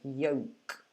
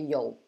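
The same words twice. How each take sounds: First: The L is silent, rhyming with Coke. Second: The L sound is pronounced before the K. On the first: The speaker calls it right. "you should say yolk" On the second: The speaker calls it wrong. "You shouldn't say yolk"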